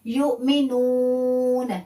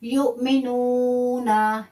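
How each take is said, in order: First: युमिनून chanted, ending on a silent n; stopping form. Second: युमिनूना read slowly with the final a sounded; full ending. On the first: Teacher showing the pausal form at the verse end. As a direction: end युमिनून on a still n with no vowel after. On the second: Teacher showing the form not used at a stop. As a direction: say युमिनूना with the last a clearly voiced. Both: Shown as a demonstration. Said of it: "वक्फ करना है".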